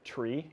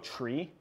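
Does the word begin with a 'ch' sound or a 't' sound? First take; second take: t sound; ch sound. First: The word begins with a plain 't' sound. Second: The word begins with a 'ch' sound. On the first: This is the usual way to say it. "Instead of tree?" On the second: This is how people from Washington say it. "so basically they say it with a CH"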